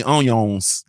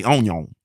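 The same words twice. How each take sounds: First: Said in the usual way. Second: "onion" with no s on the end; Louisiana "onion". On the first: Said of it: "they don't even say onions". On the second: Shown as a demonstration. Explaining how Louisiana folks talk, singular "onion". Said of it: "They say onion".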